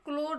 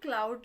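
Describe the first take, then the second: First: The vowel sounds like 'oh'. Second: The vowel sounds like 'ow'. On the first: The speaker calls it wrong. "क्लोड नहीं" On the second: The speaker calls it right. "क्लाउड लिखा है"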